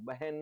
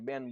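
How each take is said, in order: First: The middle h sound is pronounced. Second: The middle h sound is dropped. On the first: This is the standard form. "બહેન નહીં બોલીએ" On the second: This is the Kathiyawadi dialect form. "બેન બોલશું"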